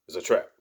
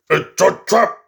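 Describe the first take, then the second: First: A low, muted murmur; murmured almost to himself; quiet first take. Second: Higher and louder, trap rising; shouted alarm. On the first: Quoting the movie line, low and hushed. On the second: Quoting the movie line as a loud, alarmed shout. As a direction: call out the warning. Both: Retold or imitated.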